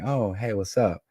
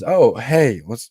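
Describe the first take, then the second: First: She sounds relaxed and expecting him. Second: She sounds startled and caught off guard.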